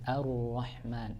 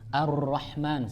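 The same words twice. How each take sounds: First: The r is said with its trill kept hidden. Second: The r is rolled with a strong, long trill. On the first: The speaker calls it right. "Tapi disembunyikan uh, takrirnya" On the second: The speaker calls it wrong. "maka tidak dibaca"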